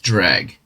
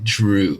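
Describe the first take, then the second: First: It has a short e and ends in g. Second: It ends in an oo vowel, no g. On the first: The speaker calls it right. "So it's dreg" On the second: The speaker calls it wrong. "I thought it was like Drew or something"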